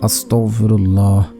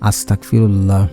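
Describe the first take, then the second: First: The middle consonant is a throaty gh sound. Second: The middle consonant sounds like a hard k. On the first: The speaker calls it right. "আপনারা পড়বেন" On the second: The speaker calls it wrong. "অনেকে এইভাবে পড়েন ... আস্তাক না আস্তাক পড়বেন না"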